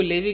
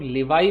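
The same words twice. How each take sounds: First: "लेवी" ending in a plain EE sound; pronounced LEVY. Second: "लेवाई" ending in an EYE sound, not EE; pronounced LEV-EYE. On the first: Teacher shows learners how some people say the word, "लेवी" as LEH-vee. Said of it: "कुछ लोग इसको लेवी कहते हैं". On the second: Teacher shows learners the other variant some use, "लेवाई" as le-VAI. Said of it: "कुछ लोग लेवाई भी कह देते हैं". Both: Shown as a demonstration.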